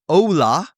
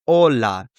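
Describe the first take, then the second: First: "Ola" with an English oh-oo glide, pitched higher; swooping two-part O in "Ola"; gringo pronunciation. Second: "Hola" with a pure, unglided O; Spanish pronunciation. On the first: Teacher contrasting gringo with native, gliding O. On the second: Teacher modelling the right version, pure O. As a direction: say "Hola" as a native, no woo in the O. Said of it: "the gringo versus the Spanish person". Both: Shown as a demonstration.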